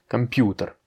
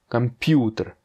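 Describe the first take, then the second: No difference in how they are said.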